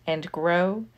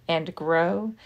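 No difference in how they are said.

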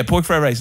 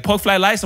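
First: Said in the usual way. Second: "Pork fried rice" as "pork flied lice", mock Chinese accent. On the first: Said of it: "that's how we talk". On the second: Worker repeats the order back, "Pork fried rice" in mock Chinese accent, r's as l's. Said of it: "gives me fucking flying lice".

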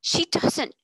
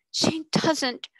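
First: She doesn't. cried louder and higher; passionate insistence. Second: She doesn't. breathed without voice; intense whisper. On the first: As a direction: fling out She doesn't. in outrage. Passionate outburst, repeated denial. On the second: Repeat dropped to whisper. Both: Acted.

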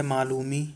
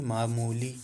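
First: मालूमी said with the L before the M, ma-LOO-mee; slip of the tongue. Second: मामूली said with the M before the L, maa-MOO-lee; careful corrected मामूली; corrected word. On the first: Real, not acted. Teacher misreads the word in dictation, says मालूमी with swapped sounds. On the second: Shown as a demonstration. Teacher corrects herself for the class, clear मामूली. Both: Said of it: "मालूमी नहीं".

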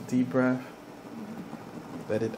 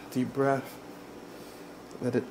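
No difference in how they are said.

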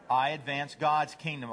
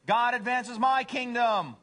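First: Understated, lightly voiced devoted dog; humble dog. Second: High, loud, slow boast; self-centered cat. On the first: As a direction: answer simply, in an easy pitch. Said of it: "What's a dog say?". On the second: Acted. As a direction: trumpet it like a conceited cat. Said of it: "First one is".

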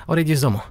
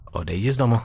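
First: Odejdi z domu with Odejdi pitched high and stressed; high pushy take. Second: Said in the usual way. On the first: Shown as a demonstration. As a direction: lead hard with a high Odejdi. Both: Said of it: "repeats the phrase in different ways".

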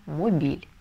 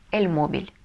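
First: Мобиль stressed on the last syllable, mo-BIL; мобиль the wrong way, stress on BIL. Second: Мобиль stressed on the first syllable, MO-bil; эль мобиль with stress on MO; correct stress. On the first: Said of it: "если не поставим, то получится". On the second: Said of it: "ударение мы ставим на первый слог". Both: Shown as a demonstration.

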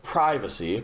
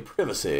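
First: "privacy" with a long i as in "pry", drawn out. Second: "privacy" with a short i as in "privet". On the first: Player weighing two ways to say it, long-i "privacy". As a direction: stretch "privacy" as PRY-vuh-see, slowly. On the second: Player weighing two ways to say it, short-i "privacy". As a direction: say "privacy" as PRIV-uh-see, lower, falling. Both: Shown as a demonstration. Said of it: "all depends how you say it".

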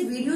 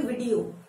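First: "वीडियो" with a long VEE; mispronunciation to avoid. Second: "वीडियो" with a short first vowel, VID-ee-o; correct pronunciation. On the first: Teacher showing what not to say, long-vowel mispronunciation. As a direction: say "वीडियो" as VEE-dee-yo, first vowel stretched. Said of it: "इसे वीडियो नहीं बोलते". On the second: Teacher correcting learners, short-vowel pronunciation. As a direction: say "वीडियो" with quick vi, like "bid". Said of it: "इसे बोलते हैं". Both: Shown as a demonstration.

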